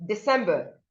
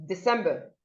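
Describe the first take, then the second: The two takes are said the same way.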